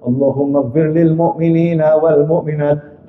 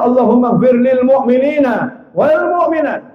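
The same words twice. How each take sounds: First: Lower, measured Arabic prayer; a low, steady khutbah prayer line; prayer recitation. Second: Higher, insistent recitation; preacher stressing the prayer covers everyone; emphatic prayer. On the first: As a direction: recite it low and even like the khatib. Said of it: "Semuanya dimintakan ampun". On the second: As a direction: lift the prayer up, urging it to include all. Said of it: "kecualikan semuanya". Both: Shown as a demonstration.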